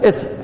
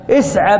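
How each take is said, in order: First: The word ends on a bare consonant. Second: The word ends with a short a vowel. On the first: The word stands at a pause. "تقف عليها ساكنة فتقول" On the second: The word runs on into the next word. "فإذا وصلت قلت ماذا؟ ... بفتح فقط"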